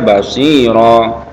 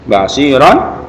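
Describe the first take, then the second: First: The word ends with a long vowel, no n. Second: The word ends with a short vowel and n. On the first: The reader stops at the end of the word. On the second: The reading continues without stopping.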